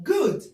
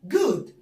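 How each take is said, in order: The two takes are said the same way.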